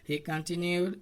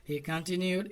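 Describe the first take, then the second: Both takes have the same delivery.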